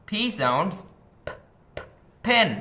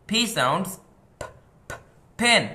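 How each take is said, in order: No difference in how they are said.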